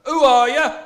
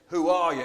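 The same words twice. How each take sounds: First: Bellowed terrace chant, much higher and very loud; chanted, yell it like a stadium crowd; football chant. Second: Loud gruff who are you; demanding Cyclops. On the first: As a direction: fans chanting at a rival. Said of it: "like when you go to a football match". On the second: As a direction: bark the question down at him. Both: Acted.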